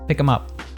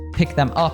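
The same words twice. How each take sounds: First: The TH sound in them is dropped. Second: The TH sound in them is pronounced. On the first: "That T H completely disappeared" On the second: "if I say pick them up"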